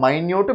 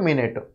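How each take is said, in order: First: Minute said "my-nyoot", two long syllables. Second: Minute said "min-it", short vowels. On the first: Teacher recapping homographs, minute pronounced "my-nyoot". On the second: Teacher recapping homographs, minute pronounced "min-it". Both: Shown as a demonstration. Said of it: "pronunciation different".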